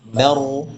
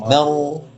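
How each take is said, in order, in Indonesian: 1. Vokal m terdengar ringan dan r terdengar berat. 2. Vokal m terdengar ringan dan r terdengar berat.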